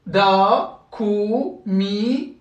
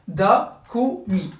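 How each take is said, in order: First: DA, KU, MI with drawn-out vowels; long syllables. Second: DA, KO, MI with brief vowels; short syllables. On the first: Teacher recapping long syllables, held vowels in "Da, ku, mi". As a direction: hold each vowel long in "Da, ku, mi". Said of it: "C'est des syllabes longues". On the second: Teacher recapping short syllables, brief vowels in "Da, ko, mi". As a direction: cut each vowel short in "Da, ko, mi". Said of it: "C'est ça les syllabes courtes". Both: Shown as a demonstration.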